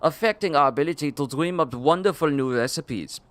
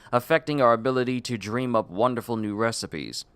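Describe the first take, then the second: First: It is read in a put-on Austrian accent. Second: It is read in an ordinary, unaccented voice.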